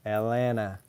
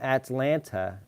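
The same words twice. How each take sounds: First: The T sounds are dropped entirely. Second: The T sounds are clearly pronounced. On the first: This is how most locals say it. The speaker calls it right. "I also say Atlanta without the T's. Sounds like I'm saying A L A N A" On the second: This is how outsiders say it. The speaker calls it wrong. "But then people say, oh, you're from Atlanta. And it's like, no, no one says that"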